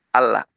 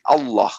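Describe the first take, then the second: First: The double L is said thin and light. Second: The double L is said thick and dark. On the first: The word follows a vowel with kasra. "maka dibacanya tipis" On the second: The word follows a vowel with fatha. "maka cara membacanya tebal menjadi Allah"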